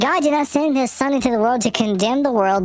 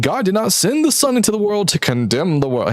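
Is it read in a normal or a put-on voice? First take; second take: put-on; normal. First: It is read in a put-on voice. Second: It is read in his normal voice.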